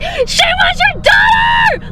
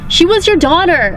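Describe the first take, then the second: First: It is said wildly, with great energy. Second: It is said flatly, in a monotone. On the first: The speaker calls it right. "I would have gone crazy" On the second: The speaker calls it wrong. "she said it in this like such a monotone way"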